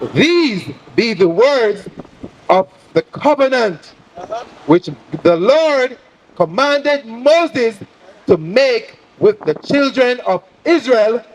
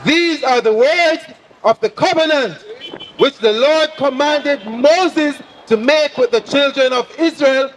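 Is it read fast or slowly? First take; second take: slowly; fast. First: It is read at a slow pace. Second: It is read at a faster pace.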